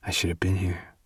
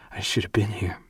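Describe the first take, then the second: First: Soft unvoiced whisper; whispered heartbroken admission; whispered regret. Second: Soft unvoiced whisper, falling; quiet whispered echo; whispered regret repeated. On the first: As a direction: whisper it into her hair. Gray whispers his regret. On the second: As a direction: whisper it again, settling.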